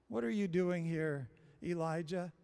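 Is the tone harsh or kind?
kind. It is said gently and with kindness.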